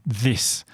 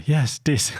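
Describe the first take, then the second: First: Teacher showing "this"; correct th. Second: "dis" with d, higher; boy says "dis", not "this"; "dis", eager and higher; imitating the boy. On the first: Shown as a demonstration. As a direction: model "this" for the boy. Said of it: "and I would say". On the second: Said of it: "And he'd go".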